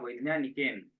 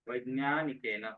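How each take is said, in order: First: The word ends on a bare n sound. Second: The final n is followed by a full vowel. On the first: The speaker calls it wrong. "न को हलंत कर दिया तुमने" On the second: The speaker calls it right. "यहाँ पर न पूरा चाहिए।"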